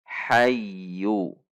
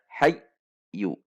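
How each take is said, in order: First: Slow "hayyu" joined through a doubled y with no break; correct smooth hayyu. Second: "hayyu" chopped into "hay", a gap, then "yu"; wrongly jerked hayyu. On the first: Teacher models the right reading, smoothly joined. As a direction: glide through the y of "hayyu" unbroken. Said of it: "Namun dibaca hayyu". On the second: Teacher shows another wrong reading, jerked apart. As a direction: cut "hayyu" in two with an abrupt stop. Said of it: "Juga tidak dibaca hayyu". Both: Shown as a demonstration.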